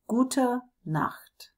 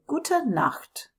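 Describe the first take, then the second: First: Bedtime whisper. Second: Said in the usual way. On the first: Shown as a demonstration. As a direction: whisper "Gute Nacht" like tucking someone in. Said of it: "ready to say those last, last good nights". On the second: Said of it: "then we say".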